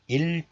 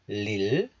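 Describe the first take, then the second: First: The syllable begins directly with a vowel. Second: The syllable begins with an L sound. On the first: This is the syllable on its own. "This is pronounced as 일 in isolation" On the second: The previous final consonant carries over into it. "this 이응 is assimilated into 리을. So 일 becomes 릴, like this"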